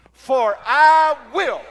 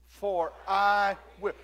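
First: Booming, drawn-out "I", higher and very loud; speaking for God. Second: Said in the usual way. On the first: Shown as a demonstration. Preacher shows congregation how to speak for God, booming. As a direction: proclaim it slowly with full authority. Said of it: "Say it like you're speaking for God". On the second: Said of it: "Let's say it again".

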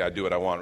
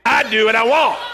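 First: Said in the usual way. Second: Very loud, high defiant shout; with gusto. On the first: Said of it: "I need you to say that with me". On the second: Shown as a demonstration. Pastor urging congregation to join him, shouted with gusto. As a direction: belt it out to rouse the crowd. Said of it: "Say it with some gusto".

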